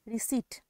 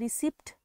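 First: No p sound is heard before the final t. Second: A p sound is pronounced before the final t. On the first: The speaker calls it right. "Last में पी जो है वो silent होगा" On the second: The speaker calls it wrong. "इसको हम रिसिप्ट नहीं बोलेंगे"

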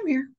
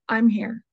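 First: It is said quietly and calmly. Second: It is said loudly and forcefully.

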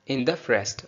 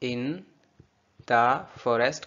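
First: The words run together as one word. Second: Each word is said separately and fully.

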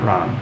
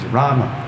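First: The word ends on the m sound. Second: The word ends with a short vowel. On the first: The speaker calls it wrong. "it's not Ram" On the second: The speaker calls it right. "it's Rama"

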